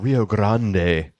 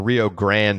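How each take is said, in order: First: It is said with a Spanish-style pronunciation. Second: It is said with a plain English pronunciation. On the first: "it sounds a little contrived" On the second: "some people say that"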